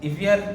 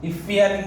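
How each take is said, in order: Both takes have the same delivery.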